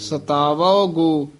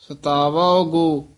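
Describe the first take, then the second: The two takes are said the same way.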